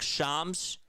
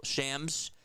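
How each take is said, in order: First: "Shams" said slowly as SHAHMZ; drawn-out ah vowel. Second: "Shams" said as SHAMZ, rising; short a vowel. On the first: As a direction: say "Shams" with a long ah. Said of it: "that's how you say it". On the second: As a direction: say "Shams" with the a of "ham". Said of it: "or, well". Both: Shown as a demonstration.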